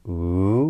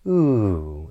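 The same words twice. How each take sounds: First: The pitch rises through the sound. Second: The pitch falls through the sound. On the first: It marks a question or a list. "So a rising intonation pattern would be" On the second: It marks a statement, exclamation or command. "this downward intonation would be"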